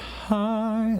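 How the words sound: The vowel starts with a gentle breathy puff. "she does a hi. That's an aspirate"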